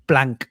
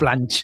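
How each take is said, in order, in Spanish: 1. El nombre termina con un sonido k fuerte. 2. El nombre termina con un sonido ch. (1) "Porque es Mark Planck" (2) "no Planch"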